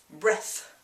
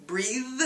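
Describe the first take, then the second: First: "breath" with short e and airy th; clear TH. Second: "Breathe" with long ee and buzzing th; clear TH. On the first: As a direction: say "breath", tongue between the teeth, voiceless th. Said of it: "you see your tongue in between the teeth". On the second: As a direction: say "Breathe", tongue between the teeth, voiced th. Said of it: "show your tongue between your teeth". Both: Shown as a demonstration.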